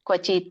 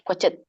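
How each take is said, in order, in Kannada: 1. ತ ನಂತರ ಒಂದು ಸ್ವರ ಸೇರಿಸಲಾಗಿದೆ. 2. ಪದ ಶುದ್ಧ ತ ವ್ಯಂಜನದಲ್ಲಿ ಕೊನೆಗೊಳ್ಳುತ್ತದೆ. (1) "ಕ್ವಚಿತ ಅಲ್ಲ" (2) "ಅರ್ಧ ಹೇಳ್ಬೇಕು ತ ಅನು ಅದಕ್ಕೆ ಸ್ವರ ಕೂಡಿಸ್ಬಾರ್ದು"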